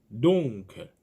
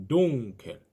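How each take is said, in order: Both takes have the same delivery.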